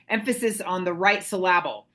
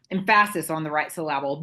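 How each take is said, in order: First: Said in the usual way. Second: "Emphasis" with the stress moved to the middle, "em-FASS-is"; deliberately mis-stress "Emphasis" as "em-FASS-is"; playfully wrong stress, "Emphasis" said "em-FASS-is"; joke misplaced stress. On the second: Shown as a demonstration.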